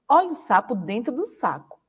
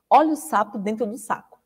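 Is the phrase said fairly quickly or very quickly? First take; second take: fairly quickly; very quickly. First: It is said at a fairly quick pace. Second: It is said at a very quick pace. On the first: "vai aumentar um pouquinho a velocidade agora" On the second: "Vou tentar um pouquinho mais rápido, ó"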